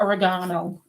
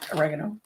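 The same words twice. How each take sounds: First: The word has a non-American pronunciation. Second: The word has an American pronunciation.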